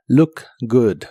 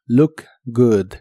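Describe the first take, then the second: First: "Look good" with a short punchy u in both; "Look good" vowels short and explosive; short burst u. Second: "look good" with short, clipped u; "look good" quick explosive vowels; short burst u. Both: Shown as a demonstration. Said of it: "una U corta y explosiva".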